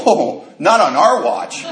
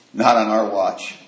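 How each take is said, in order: First: Mock heroic vow. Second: Quiet solemn vow. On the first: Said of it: "And I go". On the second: Retold or imitated. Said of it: "looked at me and said".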